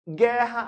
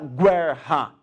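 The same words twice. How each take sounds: First: The U is silent, giving a plain G. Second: The U after the G is sounded aloud. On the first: The speaker calls it right. "a mesma coisa" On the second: The speaker calls it wrong. "Ninguém fala guerra"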